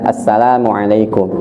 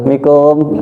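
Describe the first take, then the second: First: Every syllable of the greeting is said. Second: Only the last syllables of the greeting are said. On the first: The speaker calls it right. "ucapkan yang benar" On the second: The speaker calls it wrong. "mikumnya doang ya"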